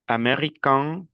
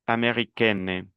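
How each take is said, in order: First: "american" rising to a nasal vowel; nasal ending. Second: "americaine" falling onto a clear n; non-nasal ending. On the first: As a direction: end "american" through the nose. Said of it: "las dos últimas son nasales". ("american" con final nasal) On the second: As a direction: sound the n in "americaine". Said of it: "el segundo no es nasal". ("americaine" con la n clara) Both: Shown as a demonstration.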